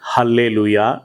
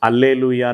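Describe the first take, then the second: First: The word begins with an h sound. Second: The word begins directly with a vowel sound. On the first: This is a regional usage. "కొంతమంది హల్లేలూయా అని పలుకుతారు" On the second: This is the original pronunciation. "కొంతమంది అల్లేలూయా అని పలుకుతారు"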